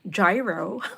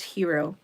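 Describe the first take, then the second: First: The word begins with a J sound. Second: The word begins with an H sound. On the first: This is how people here say it. "dito ang tawag nila gyro" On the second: This is how it really should be said. "but it is hero"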